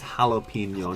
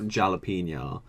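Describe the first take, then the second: First: The word starts with a soft H sound. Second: The word starts with a hard J sound. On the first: The speaker calls it right. "It's jalapeno" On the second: The speaker calls it wrong. "not jalapeno. ... Don't pronounce the juz"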